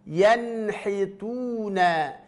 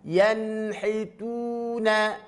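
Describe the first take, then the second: Both takes have the same delivery.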